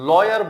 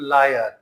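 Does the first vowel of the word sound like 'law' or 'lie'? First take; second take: law; lie. First: The first vowel sounds like 'law'. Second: The first vowel sounds like 'lie'. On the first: The speaker calls it right. "इसको लॉयर बोलते हैं" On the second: The speaker calls it wrong. "ना कि लायर"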